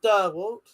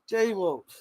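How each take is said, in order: First: The first syllable sounds like 'der'. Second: The first syllable sounds like 'dee'. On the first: The speaker calls it wrong. "Not Der Walt" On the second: The speaker calls it right. "D Walt. Not Der Walt"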